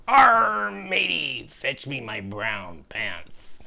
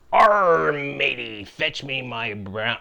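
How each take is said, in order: First: A hammy pirate captain losing his nerve at the sight of the armada; panicked pirate. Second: Loud pirate growl of Arr, then a hammy pirate captain voice. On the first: Pirate captain, facing ten ships, begs his cabin boy in a hammy, panicked pirate voice. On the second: Pirate captain calls to his cabin boy in a hammy pirate voice. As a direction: play the swaggering pirate captain calling his crew. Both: Acted.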